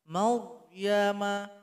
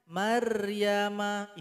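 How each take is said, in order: First: The r is heavy, with rounded lips. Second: The r is light, with unrounded lips. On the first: The speaker calls it right. "Jadi angkat sedikit ke atas" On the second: The speaker calls it wrong. "kalau nggak diangkat bibirnya, ... itu tipis"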